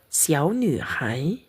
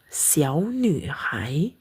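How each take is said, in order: No difference in how they are said.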